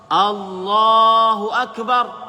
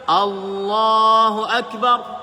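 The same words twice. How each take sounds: Both takes have the same delivery.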